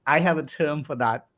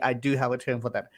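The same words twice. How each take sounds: First: Said in the usual way. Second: "do" given the weight, the rest falls away; stress on do. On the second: Shown as a demonstration. Host insisting to the viewers, stressing "do". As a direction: lean on "do" to insist.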